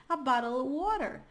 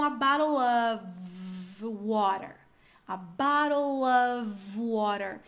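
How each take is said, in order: First: BOTTLE OF WATER linked, OF reduced to "uh"; barely audible V. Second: BOTTLE OF run together slowly, V of OF held long; forced linking. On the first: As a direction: run "bottle of water" together, dropping the V. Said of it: "às vezes sai bem suave, então você quase não escuta". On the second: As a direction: drag out "bottle-of", buzzing the V into "water". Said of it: "Of que eu tô fazendo, eu tô forçando". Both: Shown as a demonstration.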